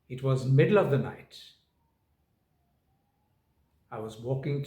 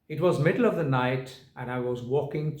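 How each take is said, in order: First: There is a clear pause after night. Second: It runs on without a pause after night. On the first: The speaker calls it right. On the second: The speaker calls it wrong.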